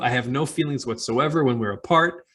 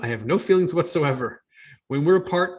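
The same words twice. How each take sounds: First: It runs straight on into 'when we're apart'. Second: It breaks after 'whatsoever' before 'when we're apart'. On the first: The writer feels nothing while apart from the reader. "same words, very different meaning" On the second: The writer feels nothing for the reader at all. "small punctuation, big difference in message"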